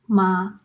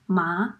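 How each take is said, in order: First: "ma." held level and even in Mandarin first tone. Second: "ma." rising in Mandarin second tone. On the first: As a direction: keep the pitch of "ma." flat, no rise or fall. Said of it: "The first tone is an even tone". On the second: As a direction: lift "ma." upward like a question. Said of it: "The second tone is a rising tone". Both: Shown as a demonstration.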